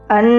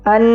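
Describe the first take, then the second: The two takes are said the same way.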